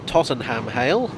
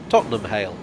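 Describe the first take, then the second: First: The last syllable of Tottenham sounds like ham. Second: The last syllable of Tottenham sounds like um. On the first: The speaker calls it wrong. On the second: The speaker calls it right. "it's pronounced um"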